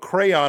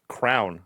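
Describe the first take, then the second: First: The word is said with two syllables. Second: The word is said as one syllable. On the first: This is the standard way to say it. "is the proper pronunciation" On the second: This is how people say it where the speaker is from. "I say crown, like a king would wear a crown"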